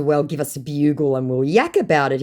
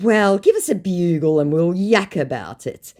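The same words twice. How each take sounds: First: Said in the usual way. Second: Broad Aussie slang. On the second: Retold or imitated.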